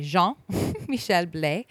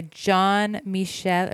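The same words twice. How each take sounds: First: "Jean Michel Blais" corrected to a French reading, with a laugh; French pronunciation. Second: "John Michel" said the English way, like the name John; "John Michel" with an anglicized English reading; English pronunciation. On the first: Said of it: "say it with a, like, a French accent". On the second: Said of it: "or sorry, [name]". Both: Shown as a demonstration.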